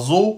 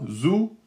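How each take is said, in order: First: The vowel is an open 'o' sound. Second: The vowel is a closed 'oo' sound. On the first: The speaker calls it wrong. "zou et pas zo" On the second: The speaker calls it right. "zou et pas zo"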